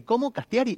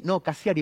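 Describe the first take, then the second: First: Puzzled rising question, says Castiari with a t; misheard surname. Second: Cassiari said with a clear s-s sound, no t; spelling out his surname for a stranger: Cassiari said carefully; correcting the surname. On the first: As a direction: mimic a listener asking back Castiari with a t. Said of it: "para explicarle al otro cómo se escribe". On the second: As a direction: patiently correct it: Cassiari, with s then c. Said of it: "primero con S, después con C". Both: Retold or imitated.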